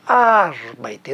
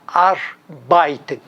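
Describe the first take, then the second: First: Arbeiten, slow and low, with a long stressed AR; stress on first syllable. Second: Arbeiten stressed on the second syllable, ar-BEI-ten; Brazilian misplaced stress. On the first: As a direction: stretch AR in Arbeiten, leave beiten light. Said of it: "ela está na primeira sílaba". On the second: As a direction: shift the weight of arbeiten onto BEI. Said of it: "quando lemos esse verbo em alemão". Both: Shown as a demonstration.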